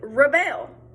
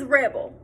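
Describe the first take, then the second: First: The stress is on the second syllable. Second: The stress is on the first syllable.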